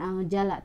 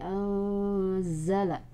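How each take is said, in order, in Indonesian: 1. Konsonan di tengah itu bunyi 'j'. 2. Konsonan di tengah itu bunyi 'z'. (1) "bukan anjala" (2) "tapi anzala"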